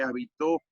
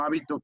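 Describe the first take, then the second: First: Habitó stressed on TÓ; habitó, accent on the final TÓ; stress on last syllable. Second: Hábito stressed on HÁ; hábito, accent up front on HÁ; stress on first syllable. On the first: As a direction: say habitó with the weight landing on the end, ha-bi-TÓ. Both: Shown as a demonstration. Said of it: "no es lo mismo hábito que habitó".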